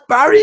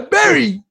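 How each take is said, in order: First: The first vowel sounds like the one in cat. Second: The first vowel sounds like the one in bed. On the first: This is how the name is read from its spelling. "But you spell it like Barry?" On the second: This is how the friend from Kenya says his own name. "you name Barry like fruit and berries? Yeah"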